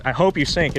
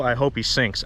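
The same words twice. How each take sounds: First: Angry jab. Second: Said in the usual way. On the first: Real, not acted.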